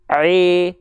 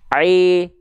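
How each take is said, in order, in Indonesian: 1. Bunyi vokal 'i' terdengar tumpul dan tidak jelas. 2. Bunyi vokal 'i' terdengar tumpul dan tidak jelas.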